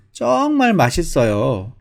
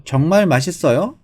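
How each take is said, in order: First: 정말 drawn out long on its first syllable; slow, emphatic 정말 falling away through 맛있어요; natural native-like intonation. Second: Said in the usual way. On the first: Shown as a demonstration. Teacher modelling Korean intonation for learners, 정말 stretched with feeling. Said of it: "이렇게 말하면 더 자연스럽고 한국 사람 같거든요". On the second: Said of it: "이렇게 해도 말해도 되지만".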